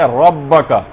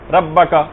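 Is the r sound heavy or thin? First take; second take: heavy; thin. First: The r sound is heavy and full. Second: The r sound is thin and light. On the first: The speaker calls it right. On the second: The speaker calls it wrong.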